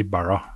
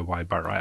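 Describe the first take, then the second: First: Ibarra begun with an "ee" sound; tentative Ibarra with an "ee" opening; first pronunciation attempt. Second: Ibarra begun like English "eye"; lower, offhand Ibarra with an "eye" opening; alternative pronunciation. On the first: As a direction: say Ibarra as "ee-BAR-ra". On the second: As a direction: offer Ibarra as "eye-BAR-ra", softer. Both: Shown as a demonstration. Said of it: "jeg vet ikke hvordan du uttaler etternavnet".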